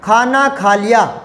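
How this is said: It is said with a flat, telling tune.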